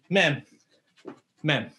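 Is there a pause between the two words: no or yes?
yes. There is a clear pause between the words. These are two separate single strikes. The speaker calls it wrong. "it's not Men, Men. Okay, that's Ippomitsu Waza"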